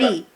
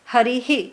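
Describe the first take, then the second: First: The word ends on 'ri' with no echo syllable. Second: The word ends with an added 'hi' echo syllable. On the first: It has a totally different meaning. The speaker calls it wrong. "It's not Hari" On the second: It names the one who maintains truth. The speaker calls it right. "it's Harihi"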